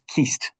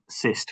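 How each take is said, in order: First: The word begins with a hard k sound. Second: The word begins with an s sound. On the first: The speaker calls it right. "it's Keist" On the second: The speaker calls it wrong. "not um, Cyst, which I said at the top"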